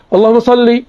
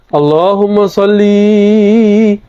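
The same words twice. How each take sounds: First: The final 'li' vowel is kept short. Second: The final 'li' vowel is stretched out long. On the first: The speaker calls it right. "lafaz dia betul" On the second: The speaker calls it wrong. "linya kepanjangan"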